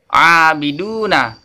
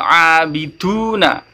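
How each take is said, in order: First: The d is released without a puff of air. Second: The d is released with a puff of air. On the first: The speaker calls it right. "Huruf da harus dibaca dengan jahar jelas" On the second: The speaker calls it wrong. "bukan abiduna"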